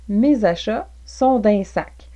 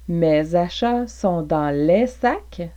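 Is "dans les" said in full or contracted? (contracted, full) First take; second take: contracted; full. First: "Dans les" is contracted to one syllable "din". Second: "Dans les" is said fully as two words.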